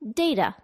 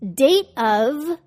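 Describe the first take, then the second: First: The word 'of' is reduced to a schwa. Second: The word 'of' is pronounced in full.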